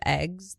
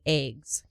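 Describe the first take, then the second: First: It is said in a plain, neutral accent. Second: It is said in a Midwestern-style accent. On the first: "instead of eggs" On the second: "people from upstate New York talk like they're from um, Midwest"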